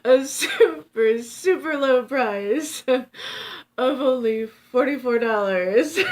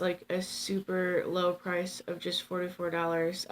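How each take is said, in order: First: Slow, high, loud sales pitch; hammed-up TV pitchman; infomercial voice. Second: Said in the usual way. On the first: Shown as a demonstration. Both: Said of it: "It sounded like an infomercial".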